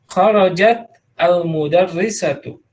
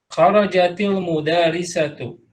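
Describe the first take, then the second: First: The words are said apart, with a glottal start. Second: The words run together with a linking i sound.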